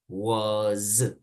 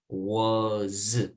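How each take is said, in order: First: The word ends with a buzzing Z sound. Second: The same.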